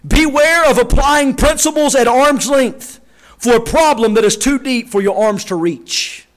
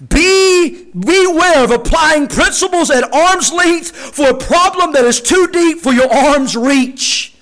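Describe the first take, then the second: First: Said in the usual way. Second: Slow, deliberate, every word weighed; slow weighty repeat. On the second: Shown as a demonstration. Preacher repeats the quote slowly so the church listens. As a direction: drag it out so it sinks in. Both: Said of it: "please do listen".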